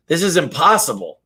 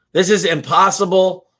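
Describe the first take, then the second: First: Said in the usual way. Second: Higher, louder exasperated giving up; hunter's louder despairing outcry; frustrated repeat. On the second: Retold or imitated. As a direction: throw up your hands on the repeat.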